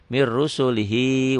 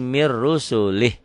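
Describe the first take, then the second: First: The phrase ends on a short final 'i' vowel. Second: The phrase ends on 'h' with no final vowel. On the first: The reader continues into the next words. "kalau disambung diteruskan" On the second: The reader stops after this word. "karena dihentikan enggak dibaca panjang"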